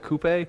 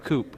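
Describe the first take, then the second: First: It is said in two syllables, like toupee. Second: It is said in one syllable, English style. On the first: "So it's like toupee" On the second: "That's the English way of doing it"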